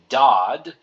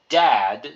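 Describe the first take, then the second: First: The vowel sounds like the 'o' in 'body'. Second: The vowel sounds like the 'a' in 'cat'. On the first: The speaker calls it right. "say dod, like in your body" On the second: The speaker calls it wrong. "Don't say dad"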